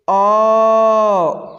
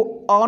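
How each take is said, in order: First: अ held very long and louder; prolonged vowel. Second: Said in the usual way. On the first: Shown as a demonstration. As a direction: stretch अ out to three beats on a steady note. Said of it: "ऐसे पढ़ेंगे". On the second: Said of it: "इसको अ न पढ़ के".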